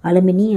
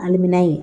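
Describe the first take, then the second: First: The word ends with an 'ee' sound. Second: The word ends with an 'eye' sound. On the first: The speaker calls it wrong. "அலுமினி அப்படின்னு சொல்லக்கூடாது" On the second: The speaker calls it right. "அலுமினை அப்படின்னு pronounce பண்ணணும்"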